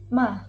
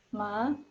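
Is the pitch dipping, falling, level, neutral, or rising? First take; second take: falling; rising. First: The pitch drops sharply from high to low. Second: The pitch rises from middle to high. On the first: It means to scold. "dimulai dari nada tinggi, kemudian langsung turun ke nada rendah" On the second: It means frog. "nada tengah ke nada tinggi"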